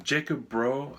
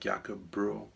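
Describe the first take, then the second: First: The name is pronounced in an English style. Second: The name is pronounced in a Danish style. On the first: The speaker calls it wrong. "I'm probably saying it wrong" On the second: The speaker calls it right. "I think it may be more like"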